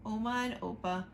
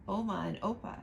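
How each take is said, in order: Both takes have the same delivery.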